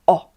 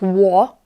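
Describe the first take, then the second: First: A pure vowel with no glide before it. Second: A w glide comes before the vowel. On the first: The speaker calls it right. "it's o. It's simply o" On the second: The speaker calls it wrong. "it's not wo"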